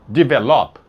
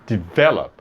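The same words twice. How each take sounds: First: The stress is on the last syllable. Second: The stress is on the middle syllable. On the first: The speaker calls it wrong. "a sílaba tônica ali não é a última" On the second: The speaker calls it right. "você fala develop... essa do meio"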